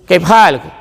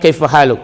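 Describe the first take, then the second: First: It is said Saudi-style with a high pitch. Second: It is said in a plain, standard way.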